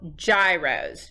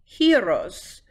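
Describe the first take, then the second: First: The word is said as its spelling suggests. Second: The word begins with a sound like 'hero'. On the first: The speaker calls it wrong. "it's gonna look like the word is spelled gyros" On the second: The speaker calls it right. "you want to say it almost like a hero"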